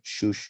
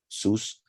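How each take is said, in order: First: The word is said with sh sounds. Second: The word is said with s sounds. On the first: "so it makes sense to have Shush. And I just say it like that" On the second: "they changed the, the pronunciation of the Shin, so they put Sus"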